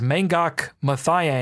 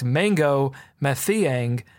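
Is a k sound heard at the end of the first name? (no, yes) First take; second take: yes; no. First: The first name ends with a k sound. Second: The first name ends without a k sound. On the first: The speaker calls it wrong. "That wasn't anywhere near close" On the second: The speaker calls it right. "The K is silent"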